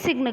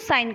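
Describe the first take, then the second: First: The word is said with a g sound. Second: The word is said with no g sound. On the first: The speaker calls it wrong. "सिग्न तो नहीं बोलते हो" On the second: The speaker calls it right. "आप क्या बोलते हो साइन कर दो"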